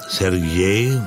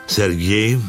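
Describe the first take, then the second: No difference in how they are said.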